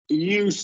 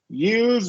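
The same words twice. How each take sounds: First: The word ends with a hissing S sound. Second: The word ends with a buzzing Z sound. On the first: It is used as a noun. "noun gets the S" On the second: It is used as a verb. "verb gets the Z sound"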